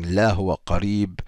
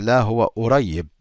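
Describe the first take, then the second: First: It is in Standard Arabic with a q sound. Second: It is in Egyptian Arabic without the q sound. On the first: "In Ägyptisch würde man nicht sagen" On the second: "man würde sagen"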